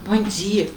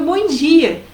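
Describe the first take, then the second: First: No exclamation mark. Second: Higher, lively greeting; upbeat, friendly good morning; cheerful good morning. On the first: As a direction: read it as a message with no exclamation. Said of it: "Aí você não põe ponto de exclamação". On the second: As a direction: say it as if with an exclamation mark. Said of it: "nem foi isso que você quis dizer". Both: Acted.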